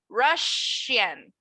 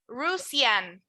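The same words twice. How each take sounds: First: The middle consonant is an sh sound. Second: The middle consonant is a plain s sound. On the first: The speaker calls it right. "You're going to pronounce it like sh" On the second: The speaker calls it wrong. "you're not going to pronounce it like S"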